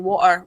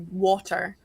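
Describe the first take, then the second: First: The middle consonant is a glottal stop. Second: The middle consonant is a clear t sound. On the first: This is how some Scots say it. "depending on where you are in Scotland, it can be water" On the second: This is how Americans say it. "what comes out the faucet for you guys would be water"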